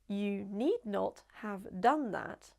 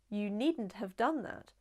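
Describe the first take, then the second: First: Need and not are said as two full words. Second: Need and not merge into one contracted word.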